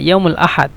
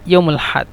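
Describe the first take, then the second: First: The full vowel before 'had' is kept. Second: The vowel before 'had' is dropped. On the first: This is the standard language form. "শুদ্ধ ভাষা" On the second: This is the regional dialect form. "আঞ্চলিক ভাষা"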